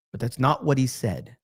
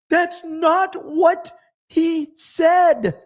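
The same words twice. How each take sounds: First: Said in the usual way. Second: High, slow and louder, drawn out in disbelief; pitched way up, drawing out every word in disbelief; exasperated. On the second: Real, not acted. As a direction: stretch it out, incredulous and loud. Exasperated rebuttal of her tweet.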